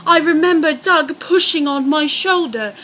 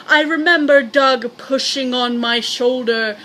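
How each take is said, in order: First: Diane's voice. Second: Said in the usual way. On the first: Acted. Narrator switches into the wife's voice for her account. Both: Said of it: "change of voices".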